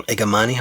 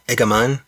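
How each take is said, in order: First: Igamani with an added final "ee"; alternative pronunciation. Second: Igaman without a final vowel; alternative pronunciation. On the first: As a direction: end Igamani on an "ee" sound. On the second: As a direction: end the name Igaman on the n. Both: Shown as a demonstration. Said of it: "not sure how that's pronounced".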